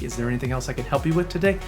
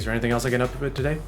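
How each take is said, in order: First: It is said warmly, with a smile. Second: It is said flatly, sounding annoyed. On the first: The speaker is glad to help. The speaker calls it right. "It sounds much more inviting and warm" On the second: The speaker seems bothered by the caller. The speaker calls it wrong. "They kind of tend to sound annoyed"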